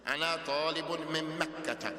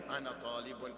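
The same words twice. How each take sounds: First: Emphatic and proud. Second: Said in the usual way. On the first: Shown as a demonstration. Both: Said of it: "with everything you have of being emphatic".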